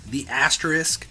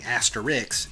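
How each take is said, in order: First: The word ends with an sk sound. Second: The word ends with a ks sound. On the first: The speaker calls it right. "pronounced like it's spelled" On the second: The speaker calls it wrong. "all of my coworkers are hell bent on it being asterix"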